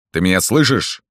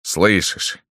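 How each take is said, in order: First: СЛЫШИШЬ pressed as a demand; demanding question. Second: СЛЫШИШЬ stated with assurance; СЛЫШИШЬ as a confident, settled statement. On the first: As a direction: press СЛЫШИШЬ as a check, higher. Demanding answer, later repeated as statement. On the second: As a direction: answer your own question surely with СЛЫШИШЬ. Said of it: "сказал уверенно Рустем". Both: A narrator's reading.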